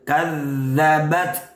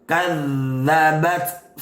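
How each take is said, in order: No difference in how they are said.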